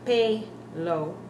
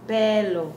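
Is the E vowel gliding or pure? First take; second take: gliding; pure. First: The E vowel glides and changes. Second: The E vowel stays pure and steady. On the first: The speaker calls it wrong. "Notice we're not saying pelo" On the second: The speaker calls it right. "It's pelo"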